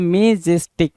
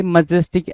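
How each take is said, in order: First: मेजेस्टिक with a drawn-out "may" first syllable; misspelt reading. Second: मैजेस्टिक with a short "ma" first syllable; correct pronunciation. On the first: Teacher reads the wrong option to students, मेजेस्टिक starting "may". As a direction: sound out मेजेस्टिक slowly as MAY-jes-tik. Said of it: "और ये क्या बोल रहा है". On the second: Teacher gives students the real word, मैजेस्टिक starting "muh". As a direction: say मैजेस्टिक as muh-JES-tik. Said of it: "मैजेस्टिक होता है". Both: Shown as a demonstration.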